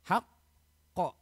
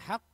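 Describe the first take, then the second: First: The breath stops before a separate qaf sound. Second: The final qaf is said smoothly without a break. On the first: The speaker calls it wrong. "Jangan sampai kita memberhentikan nafas kita" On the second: The speaker calls it right. "Contohnya begini yang benar"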